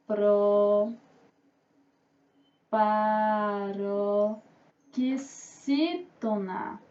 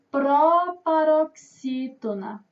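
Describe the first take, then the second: First: "Proparoxítona" very slow and low, broken by long pauses; drawn-out, low syllable dictation of "Proparoxítona". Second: "proparoxítona" slowed down with firm weight; deliberate, emphatic "proparoxítona"; emphatic announcement. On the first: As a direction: dictate "Proparoxítona" one stretched syllable at a time. Teacher dictates the term by syllables. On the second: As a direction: announce "proparoxítona" slowly and clearly. Teacher announces the term emphatically. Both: Shown as a demonstration.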